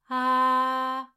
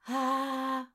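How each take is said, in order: First: The vowel is ringing with full resonance. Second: The vowel is airy without ringing resonance. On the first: "là je timbre" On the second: "là je timbre pas"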